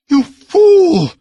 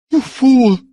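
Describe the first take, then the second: First: Even higher, louder scream; furious scream, higher. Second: High and loud, beside herself; furious scream. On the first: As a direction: scream it out, beside herself. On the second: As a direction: scream it at him in fury. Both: A narrator's reading. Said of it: "screamed Balessa almost beside herself".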